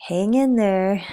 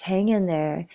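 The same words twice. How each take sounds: First: Lightly voiced cat on a motivational poster. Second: Said in the usual way. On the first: Cat on a poster urging someone to hold on, mock pep-talk cry. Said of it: "the cat is saying".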